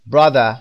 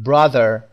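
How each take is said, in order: First: Brother with a British silent R; British accent. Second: Brother with an American final R; American accent. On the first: Teacher giving learners the British variant, British accent. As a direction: say brother the British way, ending on a vowel. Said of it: "و یا در بریتیش". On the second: Teacher contrasting with British for learners, American accent. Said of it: "امریکن هست". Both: Shown as a demonstration.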